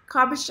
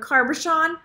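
First: No R sound follows the first vowel. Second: An R sound follows the first vowel. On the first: The speaker calls it right. "there's no R in there" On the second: The speaker calls it wrong. "I always say cabochon or carbochon"

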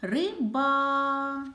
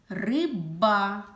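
First: The final vowel a sound is drawn out. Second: The consonant b sound is drawn out. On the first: "звук «а»" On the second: "звук «б»"

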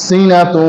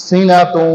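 The two takes are said the same way.

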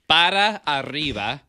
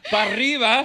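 First: It is said slowly, with each word separate. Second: It is said fast, with the words run together. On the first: "I'm going to say it slow" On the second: "sometimes you say it fast and it's all jumping"

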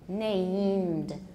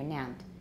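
First: The word is said slowly, with the ending clear. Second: The word is said quickly, with the ending rushed. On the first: The speaker calls it right. "So take it slowly" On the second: The speaker calls it wrong. "if you do it too fast, it'll come out named"

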